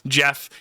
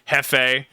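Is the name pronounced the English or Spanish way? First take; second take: English; Spanish. First: The name starts with an English J sound. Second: The name starts with a Spanish H-like sound. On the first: A cute, gentle character. "There's Jeff" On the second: A wild, destructive character. "more of a Spanish pronunciation on it"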